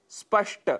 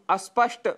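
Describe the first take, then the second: First: स्पष्ट starting straight on sp; no vowel before स्पष्ट; correct pronunciation. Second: अस्पष्ट with a short a in front; mispronunciation with added a. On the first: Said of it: "जिसकी जगह हम". (स्पष्ट का शुद्ध उच्चारण) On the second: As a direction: put "a" before the cluster: अस्पष्ट. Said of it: "यह उच्चारण कर बैठते हैं". (अस्पष्ट, अ जोड़कर अशुद्ध उच्चारण) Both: Shown as a demonstration.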